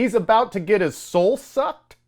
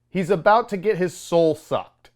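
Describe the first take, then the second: First: Higher, disbelieving read of a movie line; incredulous line quote. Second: Said in the usual way. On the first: Retold or imitated. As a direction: quote it as if you can't believe it. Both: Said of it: "is a line that was said".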